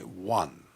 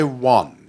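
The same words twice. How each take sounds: First: One in Received Pronunciation, the southern "wan". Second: One with a Northern English vowel, like "wun". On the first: Showing the interviewer the standard RP one. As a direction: say one the way the posh boys said it. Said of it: "You say one". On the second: A Lancashire lad saying his own northern one. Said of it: "I couldn't say one". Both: Shown as a demonstration.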